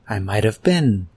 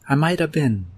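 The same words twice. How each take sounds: First: The word 'have' is only lightly reduced. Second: The word 'have' is heavily reduced. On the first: "he could have also said" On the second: "this last version is used in speaking only"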